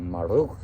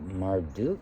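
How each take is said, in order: First: The R is rolled and the D disappears. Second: The D sound is clearly pronounced.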